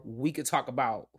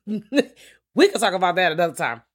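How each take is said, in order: First: Said in the usual way. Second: The words "we could talk about that another time" said through a laugh, higher and louder. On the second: Real, not acted. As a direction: laugh off the tangent.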